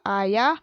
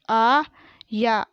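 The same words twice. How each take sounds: First: Said in the usual way. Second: आया split into long aa and yaa; very slow आया, syllables held apart; spelled out. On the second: Shown as a demonstration. Teacher sounding out आया for pupils, syllable by syllable. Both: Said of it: "मैंने इस तरीके से पढ़ा".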